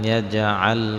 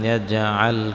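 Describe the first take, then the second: Both takes have the same delivery.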